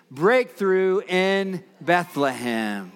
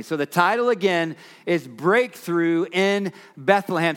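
First: Put-on slow, drawn-out chant for kids; broad singsong kids theatre. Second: Said in the usual way. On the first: Shown as a demonstration. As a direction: lead the children in a slow chant. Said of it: "So kids, can you say it with me?". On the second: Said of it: "can you say it with me".

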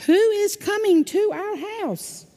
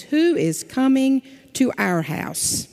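First: A much higher, hammed-up cow; big old cow voice. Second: Said in the usual way. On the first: A narrator's reading. Pastor voicing the big old cow for the children, higher. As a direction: ask it like a fussy big old cow, way up high. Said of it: "But the big old cow says". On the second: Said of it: "It says".

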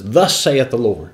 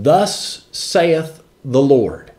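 First: "Thus saith the Lord" at normal pace, firm and pointed; pointing preacher. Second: Slow, drawn-out "Thus saith the Lord" with a long hissed "Thus"; prophet's proclamation. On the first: Preacher acting a prophet rebuking the people, brisk and pointed. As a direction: jab it out like wagging a finger. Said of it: "Gives them that preacher finger and says". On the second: Preacher mimicking a prophet to the people, slow, solemn proclamation. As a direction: stretch "Thus" and lay each word down like a prophet. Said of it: "When one of God's men stands up and says".

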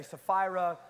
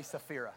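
First: Sapphira said suh-FYE-ruh, stressed FYE; Sapphira, middle syllable like eye; Sapphira with long i. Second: Sapphira said suh-FEER-uh, stressed FEER; Sapphira, middle syllable like ear. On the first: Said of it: "however you wanna say it with your accent". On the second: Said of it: "I say Sapphira". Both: Shown as a demonstration.

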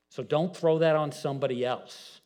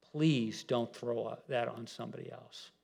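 First: Said in the usual way. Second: Much softer pleading "Please". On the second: Shown as a demonstration. Preacher begging the congregation softly, pleading. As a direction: plead it gently, voice dropped.

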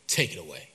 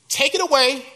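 First: Much lower and softer, sinking away; last worn-out take of take it away; plea fading out. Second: Higher and louder, pressing the plea; first loud take of take it away; desperate plea. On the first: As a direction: let take it away die on the breath. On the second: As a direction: cry it out to God. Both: Acted. Paul pleading with God.

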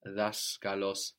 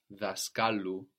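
First: Daskalos slowly, stressed on das; accent on das. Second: Daskalu with the stress moved onto ka; accent on ka. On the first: Teacher modelling the original stress slowly. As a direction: stress the first syllable of daskalos. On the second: Teacher showing the genitive moving the stress. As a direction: land on ka in daskalu. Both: Shown as a demonstration. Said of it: "pull the accent towards it".

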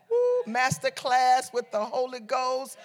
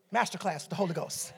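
First: Savoring exclamation. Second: Soft, low aside; understated. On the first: Preacher savors the Holy Ghost's master class, whooping then slow. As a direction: relish it slowly after a whoop. Repeats it with relish after woo. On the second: Preacher muses on the Holy Ghost's master class, quietly. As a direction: let it drop quietly and low. First, understated take before emphatic repeat. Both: Real, not acted.

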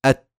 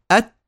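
First: "أت" shut abruptly on the t; short "أت", sound trapped at the closure; strong stopped ta. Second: "أت" stopped, then released in a light puff; short "أت" with a delayed breathy t release; ta with hams. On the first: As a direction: block the t of "أت" without trailing breath. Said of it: "شوفوا". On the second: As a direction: close the t of "أت", then let breath escape. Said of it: "يأتون بالهمس". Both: Shown as a demonstration.

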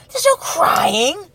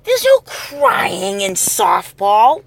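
First: High, slow mock coach yell; Tom Hanks coach. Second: Slow, drawn-out coach quote; movie coach line. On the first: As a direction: yell it like a fed-up softball coach. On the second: Retold or imitated. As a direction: spell out the rule slowly, coach style. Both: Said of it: "Much like A League of Their Own".

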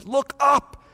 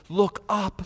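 First: Higher, stronger look up; voicing God, rising; raised call. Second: Soft, hushed look up; voicing God, hushed; quiet call. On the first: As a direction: lift the voice on the second look up. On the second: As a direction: coax them gently to look up.

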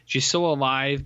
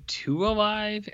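First: Said in the usual way. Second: "too" drawn out slowly and pitched high; stress on "too". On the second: Shown as a demonstration. Host correcting praise of Sweetie, "too" slow and high. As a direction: stretch and lift "too" as a wry correction.

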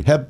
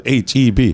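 First: Said in the usual way. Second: "H E B" as three short clipped letters; staccato. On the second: Shown as a demonstration. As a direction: say "H E B" staccato, each letter detached. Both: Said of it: "it's very staccato".

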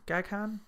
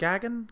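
First: "Gaghan" as GAG-HAN, h sounded; quiet, tentative GAG-han for "Gaghan"; full-syllable pronunciation. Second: "Gaghan" as GAG-un, no h sounded; softer, higher GAG-un for "Gaghan"; reduced pronunciation. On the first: Host testing the director's surname, "Gaghan" as a hushed GAG-han. Third try at the name. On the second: Host retrying the director's surname, "Gaghan" as a tentative GAG-un. Second try at the name. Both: Shown as a demonstration.

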